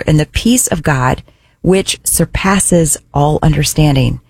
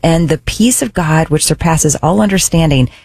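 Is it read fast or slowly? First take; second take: slowly; fast. First: It is read at a slower pace. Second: It is read at a quicker pace.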